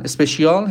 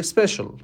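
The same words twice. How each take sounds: First: Persian-style اسپشیال with added opening e and long final AAL; practised mispronunciation. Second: Special said SPESH-ul; two quick syllables in special, stress on the first; native pronunciation. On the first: Teacher recalling a wrongly practised word, Persian-style mispronunciation. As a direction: say اسپشیال as espe-shi-AAL. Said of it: "هی برای خودم تکرار کردم". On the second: Teacher quoting a speaker in a recording, native English pronunciation. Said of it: "طرف توی صحبتاش میگه". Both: Shown as a demonstration.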